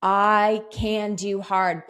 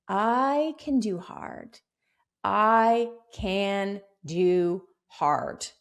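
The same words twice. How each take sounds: First: Spoken slowly and louder, like a vow; firm, slow affirmation; slow mantra. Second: Very slow, deliberate affirmation; measured, grounded affirmation; slow mantra. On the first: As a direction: declare the mantra firmly. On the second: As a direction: say it like a mantra to yourself. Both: Shown as a demonstration. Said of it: "Have that be your mantra".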